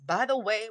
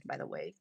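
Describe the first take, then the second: First: Said in the usual way. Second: Very low, soft tacked-on afterthought; muted aside. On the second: Real, not acted. Host tacks on an afterthought about her phone, low aside. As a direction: drop it right down, almost to yourself.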